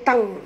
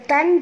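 First: The syllable ends in a nasal ng sound. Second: The syllable ends in a clear n sound. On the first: The speaker calls it right. "tapi bunyi dia tang" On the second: The speaker calls it wrong. "bukan tan"

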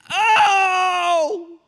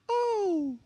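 First: It is said as a strong exclamation. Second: It is said in a casual, half-hearted way.

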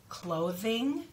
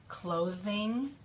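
The two takes are said the same way.

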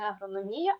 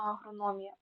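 First: The stress falls on the syllable 'mi'. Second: The stress falls on the syllable 'no'. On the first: The speaker calls it wrong. "Не агрономія" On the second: The speaker calls it right. "а агрономія"

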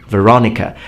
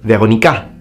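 First: The stress falls on the second syllable. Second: The stress falls on the last syllable. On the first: The speaker calls it right. "rather than Veronica" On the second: The speaker calls it wrong. "he would say Veronica, Veronica, rather than Veronica"

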